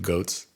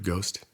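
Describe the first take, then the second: First: The word ends with a 'ts' sound. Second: The word ends with an 'st' sound. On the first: The speaker calls it wrong. "He said goats" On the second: The speaker calls it right. "he couldn't pronounce the word ghost"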